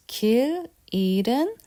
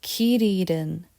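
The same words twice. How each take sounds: First: Slowly. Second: Quick, run together; fast. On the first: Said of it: "if I say this slowly". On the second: Teacher showing the quick run-together Korean form. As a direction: say it fast and connected. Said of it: "But if I say fast". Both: Shown as a demonstration.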